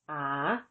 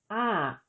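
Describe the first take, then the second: First: The syllable is said with a rising tone. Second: The syllable is said with a falling tone. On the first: "With tone mark four, the tone is rising" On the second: "with tone mark two, the tone is falling"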